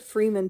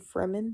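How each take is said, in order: First: The first syllable sounds like 'free'. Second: The first syllable sounds like 'freh'. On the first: The speaker calls it wrong. "I said Freeman too in like my first video" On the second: The speaker calls it right. "but it's actually Fremen"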